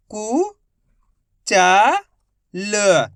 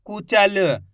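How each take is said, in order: First: कु, चा, ल each held alone; syllable by syllable. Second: Said in the usual way. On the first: Shown as a demonstration. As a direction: stretch कु... चा... ल with gaps between. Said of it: "direct मात्रा का उच्चारण करके पढ़ेंगे". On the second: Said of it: "तो मिलके बन जाएगा".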